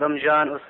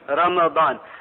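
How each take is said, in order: First: The m runs into a j sound. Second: A vowel follows the m, then a d sound. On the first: The speaker calls it wrong. "Not as some people say" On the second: The speaker calls it right. "the correct pronunciation of Ramadan is Ramadan. بفتح الميم"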